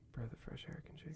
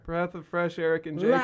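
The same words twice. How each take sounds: First: The phrase is said at a quieter volume. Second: The phrase is said at a louder volume.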